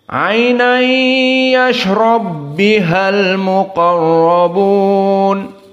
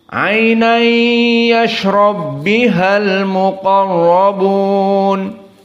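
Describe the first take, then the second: The two takes are said the same way.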